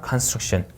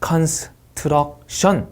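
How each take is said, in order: First: No vowels are inserted between s, t and r. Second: Extra vowels are inserted between s, t and r. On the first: The speaker calls it right. "str 사이에 모음이 없습니다" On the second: The speaker calls it wrong. "이렇게 하시면 안 됩니다"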